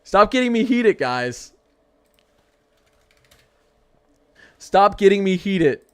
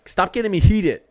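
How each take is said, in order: First: Higher, louder exasperated plea; loud whiny stop-it to the chat; playful heated outburst, slower. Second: Raised, louder mock-annoyed plea; telling chat to stop winding him up; half-laughing heated complaint. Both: Real, not acted. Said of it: "I gotta stop ranting".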